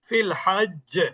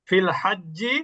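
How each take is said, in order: First: The word ends on a doubled consonant. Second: The word ends with a short vowel. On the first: The reader stops after this word. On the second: The reading continues into the next word.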